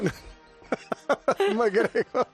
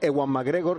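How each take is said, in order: First: The name is said with a strained, effortful voice. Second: The name is said in a plain, relaxed voice. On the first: The speaker calls it right. "como si levantaras un piano" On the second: The speaker calls it wrong. "no se dice Ewan McGregor"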